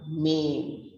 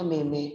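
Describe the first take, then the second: First: "meme" said slowly as a single MEEM; one syllable. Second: "meme" said wrongly as MAY-may; two syllables. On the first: Teacher giving the correct meme, slow one-syllable MEEM. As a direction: silent final e, long vowel in "meme". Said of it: "it's a meme". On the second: Teacher showing what it's not, two-syllable MAY-may. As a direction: sound the final e of "meme" as a second syllable. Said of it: "It's not a meme". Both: Shown as a demonstration.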